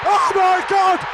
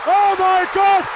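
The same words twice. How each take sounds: The two takes are said the same way.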